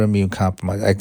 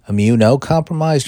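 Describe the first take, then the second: First: It begins with 'immune', with no added vowel. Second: It begins with 'immuno', with a vowel after 'immune'. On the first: "Immunocompromised or immune compromised?" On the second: "Immunocompromised or immune compromised?"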